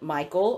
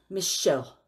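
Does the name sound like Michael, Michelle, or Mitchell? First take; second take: Michael; Michelle. First: The name is said like 'Michael', with a k sound. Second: The name is said like 'Michelle', with an sh sound. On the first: Other people have said it this way. The speaker calls it wrong. "people have pronounced it Michael" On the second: This is the name's actual pronunciation. The speaker calls it right. "it's Michelle"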